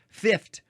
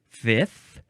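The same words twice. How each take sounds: First: The word ends with an f and t sound. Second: The word ends with only a th sound. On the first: "F I F T" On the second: "with just a th"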